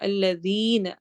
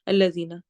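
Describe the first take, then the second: First: The 'ee' vowel is held long. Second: The 'ee' vowel is clipped short. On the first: The speaker calls it right. "तो हमने उसको लंबा करना है" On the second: The speaker calls it wrong. "अक्सर हम पढ़ते हैं"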